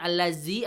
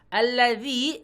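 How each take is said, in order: First: The middle consonant is a z sound. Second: The middle consonant is a soft dh sound. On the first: The speaker calls it wrong. "bukan pakai jim atau pakai zai" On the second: The speaker calls it right. "pastikan pakai zal"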